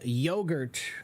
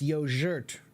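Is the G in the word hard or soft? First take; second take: hard; soft. First: The G is pronounced as a hard sound. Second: The G is pronounced as a soft sound. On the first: The speaker calls it wrong. "we pronounced it with a hard G" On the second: The speaker calls it right. "the G is a soft sound, so it's yogurt"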